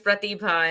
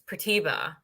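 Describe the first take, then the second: First: The name is said in a South Asian accent. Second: The name is said in an American accent. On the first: This is the original way of saying the name. "mine's Pratibha" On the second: This is how the name is said in America. "since I moved to America"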